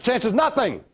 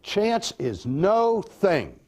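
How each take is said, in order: First: It is said fast, run together. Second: It is said slowly, as separate words.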